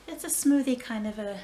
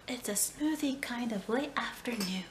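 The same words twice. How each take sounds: First: Louder take, "smoothie" hit hard; punched smoothie. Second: Said in the usual way. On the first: Shown as a demonstration. Vlogger heading to the kitchen, "smoothie" stressed loud. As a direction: lean on "smoothie" with a burst of volume.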